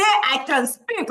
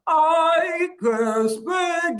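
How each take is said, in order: First: Said in the usual way. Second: High, very slow robot monotone. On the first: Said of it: "like a robot". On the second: Shown as a demonstration. Coach demonstrates for the class, talking like a robot. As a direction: stretch each word out like a robot. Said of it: "I can speak like a robot".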